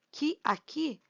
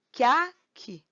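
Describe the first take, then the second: First: "que aqui" as two separate words, vowels unjoined; words kept apart. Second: "que aqui" merged as "quia-qui"; vowels run together. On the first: Teacher showing two sounds before joining, "que aqui" kept apart. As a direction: say "que", then "aqui", distinctly. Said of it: "a gente vai juntar esses dois sons". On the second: Teacher showing one block of sound, "que aqui" merged. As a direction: join "que a" in one syllable, then "qui". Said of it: "como se eles fossem uma coisa só". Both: Shown as a demonstration.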